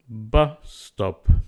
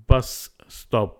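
First: The two s sounds merge into one. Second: Both s sounds are pronounced separately.

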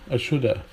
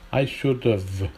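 First: It ends in an open vowel with no v. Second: It ends with a clear v sound. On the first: This is the American way of saying it. "Absence of schwa sound. Shoulda" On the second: This is the British way of saying it. "should have becomes should've"

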